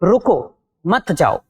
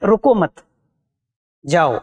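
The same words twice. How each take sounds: First: A pause comes right after the first word. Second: A pause comes right after the second word. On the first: The listener is asked to stay and not leave. "हमने लगाया अल्प विराम चिन्ह" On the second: The listener is told not to stop but to go. "यदि हमने अल्प विराम चिन्ह रुको मत के बाद लगाया"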